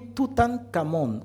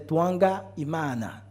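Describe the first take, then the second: First: The name is said in the usual French form. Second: The name is said ending in 'Imana'. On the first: This is the name as translated by outsiders. The speaker calls it wrong. "Quand on dit Toutankhamon" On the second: This is the name as used in the tradition. The speaker calls it right. "si on doit le prononcer un peu justement"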